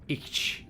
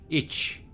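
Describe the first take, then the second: The two takes are said the same way.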